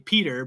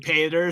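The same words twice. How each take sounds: First: The name is said with an American pronunciation. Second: The name is said with a non-American pronunciation. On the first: "in the States and in Western English you would say Peter" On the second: "over there they say Peter"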